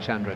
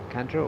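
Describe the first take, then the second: First: The name begins with a ch sound. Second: The name begins with a hard k sound. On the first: The speaker calls it right. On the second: The speaker calls it wrong.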